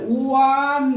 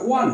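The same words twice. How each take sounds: First: ওয়ান stretched slowly, sound by sound; drawn-out pronunciation. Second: Said in the usual way. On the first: Shown as a demonstration. Teacher showing students the pronunciation, drawn-out ওয়ান. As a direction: draw out ওয়ান at half speed. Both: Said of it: "দেখো উচ্চারণটা".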